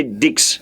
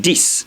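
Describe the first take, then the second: First: "Dix" with a ks ending; wrong French ten, "Dix" like dicks; sounded X. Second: "This" said as dees, with a hissed s; correct dix. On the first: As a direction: say "Dix" as the mistake, k heard before s. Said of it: "Please don't say Dix". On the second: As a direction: say "This" with a d and no k before the s. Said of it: "This is the pronunciation". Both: Shown as a demonstration.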